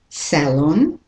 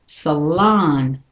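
First: The stress is on the first syllable. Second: The stress is on the second syllable. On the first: "the British and Australian is salon" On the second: "The second syllable is stressed"

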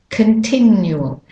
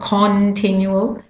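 First: The first vowel is a weak schwa. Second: The first vowel is a full, clear vowel. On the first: The speaker calls it right. "is a schwa" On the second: The speaker calls it wrong. "so it's not continual"

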